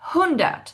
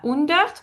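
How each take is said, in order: First: The word starts with a clearly breathed h sound. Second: The word starts without a breathed h sound. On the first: The speaker calls it right. "c'est hundert. Ha" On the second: The speaker calls it wrong. "C'est pas hundert"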